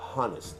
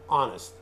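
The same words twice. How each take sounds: First: The word starts with an audible h sound. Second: The word starts with a vowel, no h sound. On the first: The speaker calls it wrong. "not honest" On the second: The speaker calls it right. "H is silent. You don't pronounce it"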